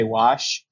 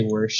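First: "wash" said with no r sound; standard wash. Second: "warsh" said softly with an r before the sh; mock the Nebraska "warsh" with an r. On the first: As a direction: say "wash" plainly, with no r at all. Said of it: "no, I say". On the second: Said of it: "I do not say". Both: Shown as a demonstration.

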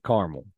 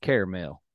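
First: "caramel" said as two syllables, CAR-mul; "caramel" clipped to two syllables, car-mul; Midwest caramel. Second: "caramel" said as three syllables, CARE-a-mel; Southern caramel. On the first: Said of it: "in the Midwest, we like to call it". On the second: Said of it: "when you go down south, they probably call it". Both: Shown as a demonstration.

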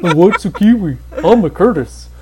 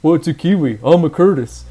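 First: Laughing retake, dry and flat; deadpan. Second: Lightly voiced, dry and flat; deadpan. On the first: Retold or imitated. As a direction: say it dry through a grin. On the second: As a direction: deliver it bone-dry.

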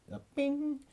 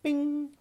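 First: A high, ringing bing noise; ping it like a notification. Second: A high, ringing bing; ping it like a notification. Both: Retold or imitated. Comedian mimicking the craving alarm, high bing.

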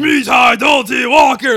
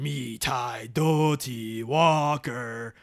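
First: "Mi tai do ti walker" yelled high and loud, drawn out; screamed. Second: Very slow, low, far-off chant of "Mi tai do ti walker"; a ghost calling from deep in the house; eerie distant voice. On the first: Imitating the monster screaming in the movie, loud shout. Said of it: "Remember when he screams it in the movie". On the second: Retelling the haunted house ghost calling out, slow eerie chant. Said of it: "a voice going". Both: Retold or imitated.

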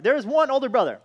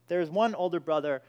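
First: ONE thrown out high and loud, then falling; preacher booms "there is one older brother" to the congregation; emphatic loud declaration. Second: Said in the usual way. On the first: Shown as a demonstration. Preacher to church, loudly proclaiming the one older brother.

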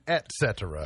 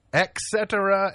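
First: Said in the usual way. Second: ET CETERA said as EK-setera; mispronounced et cetera. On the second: Shown as a demonstration. Host listing mistakes, ET CETERA said as EK-setera. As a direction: turn the T of ET CETERA into a K. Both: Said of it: "word people mispronounce most".

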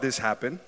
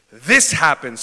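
First: Said in the usual way. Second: Big shouted this happened. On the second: Shown as a demonstration. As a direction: call it out loud to the room. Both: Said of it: "Someone shout".

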